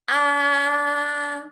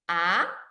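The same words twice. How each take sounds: First: The pitch stays high and level throughout. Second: The pitch starts middle and rises high. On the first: "it starts high and maintain high throughout the whole process" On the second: "It starts middle and goes up high"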